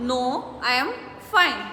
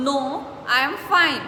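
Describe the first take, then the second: No difference in how they are said.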